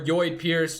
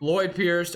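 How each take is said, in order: First: The first name begins with a Y sound. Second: The first name begins with an L sound. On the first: The speaker calls it wrong. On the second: The speaker calls it right.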